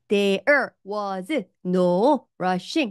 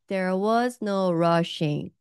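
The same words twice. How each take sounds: First: The words are said separately, not linked. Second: The words are linked smoothly together. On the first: The speaker calls it wrong. "이렇게 하지 마시고" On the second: The speaker calls it right. "연결해서"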